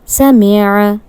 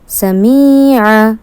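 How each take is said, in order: First: Every short vowel is kept short. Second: A short vowel is stretched out long. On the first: The speaker calls it right. "Correct pronunciation" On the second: The speaker calls it wrong. "Incorrect pronunciation"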